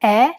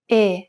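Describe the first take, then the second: First: Italian "E" as open "eh", mouth wide. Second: Italian "E" as narrow "ay" without a glide; closed E. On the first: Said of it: "Compare the open E followed by a closed E". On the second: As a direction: keep the mouth narrower for a pure closed "E". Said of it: "followed by a closed E". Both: Shown as a demonstration.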